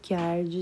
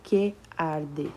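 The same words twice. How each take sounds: First: 'Que' and 'arde' merge into one syllable. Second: 'Que' and 'arde' are said as separate syllables. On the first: The speaker calls it right. "Eu junto, né? Como se fosse uma sílaba só" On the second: The speaker calls it wrong. "Eu não digo que arde"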